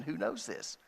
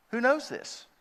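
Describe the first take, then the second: First: Preacher repeats "Who knows this?" softly to the congregation; quiet rhetorical question. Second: "Who knows this?" thrown out high and loud, stress on "knows"; preacher challenges the congregation with "Who knows this?", pitched high; rhetorical question. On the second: Preacher quizzes his flock: "Who knows this?" high and loud. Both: Shown as a demonstration. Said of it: "that's what he's asking".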